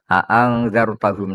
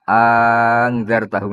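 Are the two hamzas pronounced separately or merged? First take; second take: separately; merged. First: Both glottal stops are pronounced fully and separately. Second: The two glottal stops merge into one sound. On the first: "Hamzahnya dibaca tahqiq" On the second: "bil idgham"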